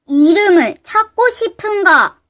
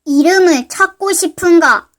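First: Slow mysterious voice. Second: Low mysterious voice, stress on 이름을. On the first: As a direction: draw it out like an unseen spirit. Mysterious voice repeats. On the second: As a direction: ask it like a hidden stranger. Mysterious voice appears. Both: Acted.

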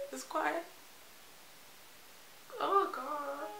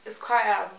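First: "it's quite" softer and higher, breaking into tears; choked up. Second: Said in the usual way. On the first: Real, not acted. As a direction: let "it's quite" catch as the tears come. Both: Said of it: "Why am I crying?".

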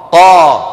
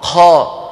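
First: قا hit loud with a firm voiced stop; voiced qaf. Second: The wrong hushed قا; wrong breathy qaf. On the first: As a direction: say قا crisply and strongly. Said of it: "علينا أن نقول". (قاف مجهورة قوية) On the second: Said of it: "ولا نقول". (قاف مهموسة خاطئة) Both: Shown as a demonstration.

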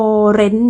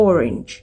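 First: "orange" as "or-REN", second syllable full; "orange" ending on a plain N; Thai-style orange. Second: "orange" as OR-inj, low and falling; "orange" with reduced ending and final soft J; English orange. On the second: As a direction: stress the first syllable of "orange". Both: Shown as a demonstration. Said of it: "บ่แม่น orange จังสิเดะ".

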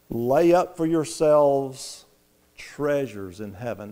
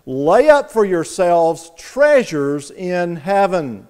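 First: "Lay up" slow and soft, fading on "treasures in heaven"; quiet slow scripture. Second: "Lay up" stressed, each word of "Lay up for yourselves treasures in heaven" slow and falling; slow stressed scripture. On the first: Preacher reading verse twenty, quiet and slow. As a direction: say it gently, slowly. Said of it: "in verse twenty". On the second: Preacher quoting verse twenty, slow and emphatic. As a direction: read it out slowly and firmly. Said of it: "adversative conjunction". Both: Shown as a demonstration.

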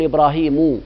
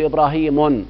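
First: إبراهيم ending in plain -u, ibrahimu, no n; correct diptote ending. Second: إبراهيم ending in -un, ibrahimun; wrong nunation with tanween. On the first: Teacher gives students the right ending on إبراهيم. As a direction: say إبراهيم as ibrahimu without nunation. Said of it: "أقول إبراهيم". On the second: Teacher shows students the wrong ending on إبراهيم. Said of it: "لا أقول إبراهيم". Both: Shown as a demonstration.

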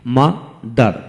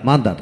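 First: "mother" slowly as মা, দার; split into syllables. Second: Said in the usual way. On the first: Shown as a demonstration. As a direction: pause between মা and দার in "mother". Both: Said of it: "দুটি syllable থাকে ডাইসিলেবল বলা হয়".

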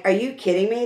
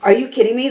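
First: Soft, strained, hoarse quote; voice giving out. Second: Higher, punchy, amazed; excited disbelief. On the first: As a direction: say it as the voice cracks away. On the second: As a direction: ask it like you can't believe it. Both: Retold or imitated. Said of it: "I'm losing my voice".

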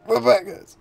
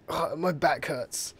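First: Much higher and louder pained whine; loud back-pain whine. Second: Slow, drawn-out groan of a sore back; groaning about back pain. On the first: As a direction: cry it out as the back pain bites. Repeats back pain complaint. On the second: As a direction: stretch the words like your back really aches. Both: Real, not acted.

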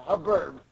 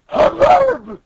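First: Said in the usual way. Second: High, loud burst of imitated commotion; mock hubbub noise. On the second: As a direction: cry it out as a noise. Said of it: "the guy makes a noise like".

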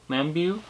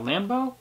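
First: "Lambeau" ending in "byoo", softly; soft, questioning "Lambeau", rhyming with "view"; trying another pronunciation. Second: "Lambeau" ending in "boh", as a question; soft, rising "Lambeau", rhyming with "go"; trying a pronunciation. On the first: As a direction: try "Lambeau" as LAM-byoo, unsure. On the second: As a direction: try "Lambeau" as LAM-boh, softly. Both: Real, not acted. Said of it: "I think it's Lambeau".

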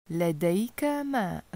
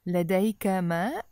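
First: لديك ماء said as a statement, falling at the end on ماء; flat statement. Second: لديك ماء with the voice rising on ماء; question tune. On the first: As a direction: let ماء drop down like a plain statement. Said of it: "That's just a statement". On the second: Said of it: "Notice how I changed my voice". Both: Shown as a demonstration.

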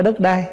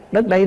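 First: "đất đai" with the open "ai" vowel of everyday speech; common pronunciation. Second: "đất đây" with the short vowel of "đây", as in "here"; correct pronunciation. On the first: Monk showing the common form he corrects, plain everyday pronunciation. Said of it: "chứ không phải đất đai". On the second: Monk teaching the proper word to listeners, careful clear pronunciation. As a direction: say "đất đây" clearly, "đây" rhyming with "bây", not "đai". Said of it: "nói cho đúng là chữ đất đây". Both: Shown as a demonstration.

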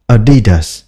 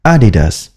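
First: Adidas said the wrong way, slowly drawn out; a mistaken Adidas; cách đọc sai Adidas; wrong version. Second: Adidas said the proper way with a short falling end; the right Adidas; cách đọc đúng Adidas; correct version. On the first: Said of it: "là Adidas là sai". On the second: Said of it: "Phải đọc là". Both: Shown as a demonstration.

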